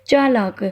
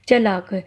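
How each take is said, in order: First: The first vowel is long. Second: The first vowel is short. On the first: The speaker calls it right. "शुद्ध रूप होता है चालाक" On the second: The speaker calls it wrong. "चलाक नहीं होता, ये अशुद्ध होता है"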